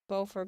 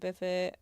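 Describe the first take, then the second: First: It is said the French way, like 'bo-for'. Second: It is said with clipped vowels, like 'biffet'. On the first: The speaker calls it right. "the beautiful French Beaufort" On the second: The speaker calls it wrong. "is butchered to Biffet"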